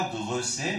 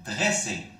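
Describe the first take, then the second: First: "dresser" said with an extra schwa, de-re-sser; teacher demonstrating the wrong form, "dresser" with a stray vowel; wrong pronunciation. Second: "dresser" said plainly, dre-sser, no vowel before the r; teacher modelling the right form, "dresser" clean and tight; correct pronunciation. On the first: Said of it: "On dit pas dresser". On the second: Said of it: "mais on dit dresser". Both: Shown as a demonstration.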